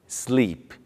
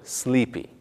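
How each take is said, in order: First: The word ends on its final consonant sound. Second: An extra 'ee' vowel follows the final consonant. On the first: The speaker calls it right. "e nem em palavras terminadas em consoantes" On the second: The speaker calls it wrong. "e não"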